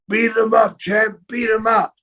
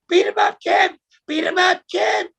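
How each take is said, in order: First: It is said in his normal voice. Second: It is said in a high voice.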